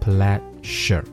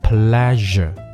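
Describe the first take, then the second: First: The middle consonant is a voiceless sh sound. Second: The middle consonant is a voiced zh sound. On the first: The speaker calls it wrong. "不是念成pleasure" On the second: The speaker calls it right. "这个音标是z 不是sh，所以这个词念成pleasure"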